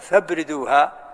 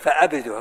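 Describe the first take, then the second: First: Fa runs straight into the b, no glottal stop. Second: A glottal stop follows fa, then a short a. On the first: "همزة وصل" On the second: "الأولى بقطع الهمزة وفتحها"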